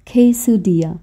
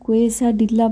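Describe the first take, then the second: First: It is said with a Mexican Spanish pronunciation. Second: It is read the way the spelling looks. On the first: The speaker calls it right. "Mexican প্রোনাউন্সিয়েশনটা না এইরকম" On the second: The speaker calls it wrong. "দেখে মনে হচ্ছে না এটার নাম কোয়েসা ডিল্লা"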